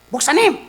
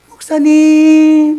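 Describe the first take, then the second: First: It is said in a tense, troubled voice. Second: It is said in a bright, drawn-out voice. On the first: The caller has a troublesome problem. "골치 아픈 목소리는 간단합니다" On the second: The caller is bringing a gift. "좋은 과일이라도 들어왔다고 가져오는 사람은 목소리가 달라"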